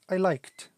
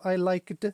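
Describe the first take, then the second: First: The ending is a plain t sound. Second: The ending is an extra 'id' syllable. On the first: The speaker calls it right. "It's I liked" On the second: The speaker calls it wrong. "it's not I liked"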